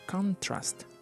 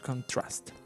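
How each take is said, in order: First: The stress is on the first syllable. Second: The stress is on the second syllable. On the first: It is used as a noun. "the intonation is on the first syllable" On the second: It is used as a verb. "the intonation is on the second syllable"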